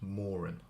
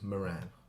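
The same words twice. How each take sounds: First: The stress is on the first syllable. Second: The stress is on the second syllable. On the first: This is how it is said in Ireland. "where the first syllable is much more emphasised" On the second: This is how it is said in England and the United States. "the second syllable is much more pronounced than the first"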